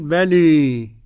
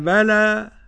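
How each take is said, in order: First: The final vowel is raised toward 'ee'. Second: The final vowel is fully open.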